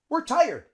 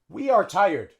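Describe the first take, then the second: First: It is said as the contraction we're. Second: It is said as two full words, we are. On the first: The speaker calls it right. "would use the contraction and say we're" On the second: The speaker calls it wrong. "A native English speaker wouldn't say that"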